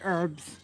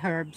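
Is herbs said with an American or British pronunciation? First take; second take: American; British. First: It is said with an American pronunciation. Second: It is said with a British pronunciation. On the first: "Americans say herbs" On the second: "British say herbs"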